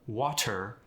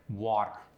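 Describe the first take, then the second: First: The middle t does not sound like a d. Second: The middle t sounds like a d. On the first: The speaker calls it wrong. "It's not" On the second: The speaker calls it right. "It's more of a D sound"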